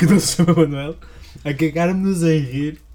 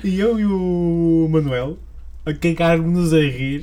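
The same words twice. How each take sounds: First: Wheezing with laughter; laughing. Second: Laughing. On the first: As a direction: laugh through the words. Laughing repeat. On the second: Laughing while telling story. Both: Real, not acted.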